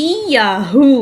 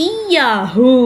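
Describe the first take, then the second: No difference in how they are said.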